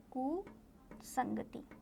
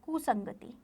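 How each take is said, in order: First: कुसंगति very slow and soft, split after कु; hushed कु, long pause, then संगति; slow dictation. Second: Said in the usual way. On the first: Shown as a demonstration. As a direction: dictate कुसंगति quietly, part by part. Word repeated slowly for writing.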